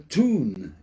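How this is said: It is said the New York way. "a tune in New York"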